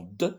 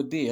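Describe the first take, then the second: First: D as a short "de", not "dé"; D tapped as the sound "duh"; sound, not letter. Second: D said as the French letter "dé"; name the letter D, "dé"; D with a clear é vowel. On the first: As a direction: sound out D with a neutral vowel. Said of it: "c'est le son D". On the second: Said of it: "C'est pas la lettre D". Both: Shown as a demonstration.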